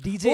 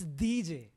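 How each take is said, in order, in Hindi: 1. नाम की शुरुआत कठोर D ध्वनि से होती है। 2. नाम की शुरुआत नरम D ध्वनि से होती है। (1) "not D J" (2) "it's a soft D"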